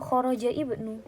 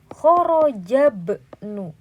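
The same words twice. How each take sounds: First: An i vowel is heard before bnu. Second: No vowel is heard before bnu. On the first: The speaker calls it wrong. "bukan kharaja ibnu" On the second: The speaker calls it right. "di sini kharaja ibnu"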